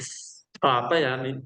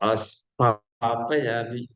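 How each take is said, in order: First: The initial s is sounded only lightly, half. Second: The initial s is sounded fully, with a vowel. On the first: The deity is invited and seated. The speaker calls it right. "तो केवल हल्का सा स उसमें छोड़िए।" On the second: The deity is invited but not seated. The speaker calls it wrong. "पूरा बोल देंगे इसका मतलब कि आपको बुला तो रहे लेकिन बैठा नहीं रहे"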